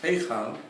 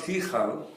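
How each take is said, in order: First: The first vowel sounds like 'ay'. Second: The first vowel sounds like 'ee'. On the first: The speaker calls it right. "it's heichal, you've got a hidden yud" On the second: The speaker calls it wrong. "since it's not hichal"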